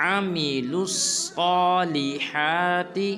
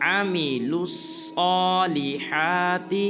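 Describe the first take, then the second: The two takes are said the same way.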